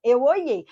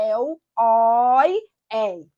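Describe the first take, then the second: First: Said in the usual way. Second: Oiei with open ó and open é; oiei, ditongo aberto bem marcado; open vowels. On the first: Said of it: "mas tem que se lembrar que a pronúncia é aberta". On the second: Shown as a demonstration. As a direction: stretch oiei out with open ó and é, stressed. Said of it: "a pronúncia é aberta".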